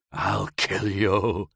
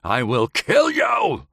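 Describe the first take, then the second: First: Lightly voiced slow whimpered threat in pain; a mild, hurting whimper of a threat. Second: Higher, slow snarled threat with KILL hit hard; furious threat. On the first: Howard curled in agony on the glass, mild whimpered threat. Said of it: "he whimpered". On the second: Howard screams at Kitty from the floor, slow furious threat. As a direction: rage breaking through the pain. Enraged threat after whimper. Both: A narrator's reading.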